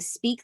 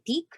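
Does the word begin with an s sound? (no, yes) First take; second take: yes; no. First: The word begins with an s sound. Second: The word begins without any s sound. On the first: "instead of saying speak" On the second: "they'll remove the S"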